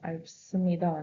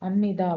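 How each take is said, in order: First: A p sound comes before the nida ending. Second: An m sound comes before the nida ending.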